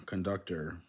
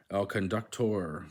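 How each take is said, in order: First: Said in the usual way. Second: "conductor" as con-duc-TOR; full "or" closing "El conductor"; last-syllable stress. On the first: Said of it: "Spanish words that end in or". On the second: Shown as a demonstration. Learner reading the Spanish word, "conductor" stressed on the end. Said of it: "are stressed on the last syllable".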